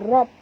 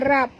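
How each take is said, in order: First: The r is heavy with a full vowel. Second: The r is light with a thin vowel. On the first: The speaker calls it right. "ra ni tebal perempuan ya, baca rob ya" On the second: The speaker calls it wrong. "jangan baca rab"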